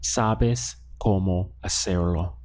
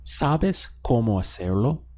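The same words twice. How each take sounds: First: "Sabes cómo hacerlo" slowly, word by word, no rise at the end; statement intonation. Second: "Sabes cómo hacerlo" run together, rising at the end; question intonation. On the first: Spanish teacher gives learners the answer as a statement, statement intonation. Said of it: "As a statement". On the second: Spanish teacher gives learners the answer as a question, question intonation. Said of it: "Now ask it as a question". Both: Shown as a demonstration.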